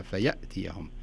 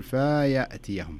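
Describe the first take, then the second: First: "فيأتيهم" with ف flowing straight into ي; "فيأتيهم" clean, nothing added after ف; correct recitation. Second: "فيأتيهم" slowly with an added vowel after the fa; "فيأتيهم" stretched with an extra letter after the fa; extra-vowel mistake. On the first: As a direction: say "فيأتيهم" with no extra sound after the fa. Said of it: "خلها". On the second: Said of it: "هنا كأن في حرف زائد بعد الفاء". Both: Shown as a demonstration.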